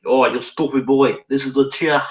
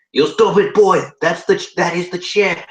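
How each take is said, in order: First: Lightly put-on Chinese accent; a milder, less raised mock-Chinese accent; thick Chinese accent. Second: Loud, high mock-Chinese scolding; hammed-up Chinese accent, raised in pitch and volume; thick Chinese accent. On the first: Manager pointing out the chair, mild mock Chinese accent. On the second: Manager scolding a confused newcomer, thick Chinese accent. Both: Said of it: "he replied in a thick Chinese accent".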